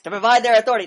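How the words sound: It is said forcefully, like a battle cry.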